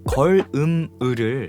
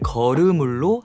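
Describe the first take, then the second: First: The final consonants stay in their own syllables. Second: The final consonants move onto the next syllable.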